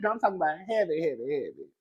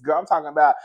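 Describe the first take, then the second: First: Said in the usual way. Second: Excited. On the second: Real, not acted.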